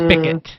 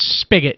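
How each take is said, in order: First: The middle consonant is not a hard G. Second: The middle consonant is a hard G. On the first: This is how some local people say it. The speaker calls it wrong. "but they say" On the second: This is how the word should be said. The speaker calls it right. "it's spigot. It's a G"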